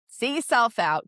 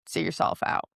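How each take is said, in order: First: Full voice, a bit higher and louder; now say it out loud and firm. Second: Whispered. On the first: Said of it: "repeated after whisper". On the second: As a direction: whisper it, no voice at all. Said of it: "repeated louder". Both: Shown as a demonstration.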